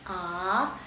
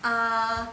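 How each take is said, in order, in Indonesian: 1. Nadanya naik dari rendah ke tinggi. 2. Nadanya tetap tinggi dan datar. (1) "nada kedua di sheng" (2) "nada ke satu"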